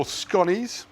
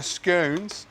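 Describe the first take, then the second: First: Said in the usual way. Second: 'scones' with a long O, rhyming with cones; posh scones. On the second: Shown as a demonstration. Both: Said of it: "for the posh people".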